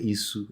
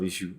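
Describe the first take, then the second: First: The middle consonant is a plain s sound. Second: The middle consonant is a sh sound. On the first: This is how one regional group says it. "the Oyo people do they do say Isu" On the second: This is the usual way to say it. "instead of issue"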